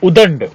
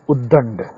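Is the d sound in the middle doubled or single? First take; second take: single; doubled. First: The middle d sound is short and single. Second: The middle d sound is held and doubled. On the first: The speaker calls it wrong. "ये वाला गलत है" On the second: The speaker calls it right. "ये वाला शुद्ध है"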